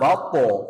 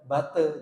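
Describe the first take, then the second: First: The syllable after 'ba' sounds like a heavy 'to'. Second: The syllable after 'ba' sounds like a light 'te'. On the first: The speaker calls it right. "Harusnya po. Inna bato" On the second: The speaker calls it wrong. "Bate jadinya te"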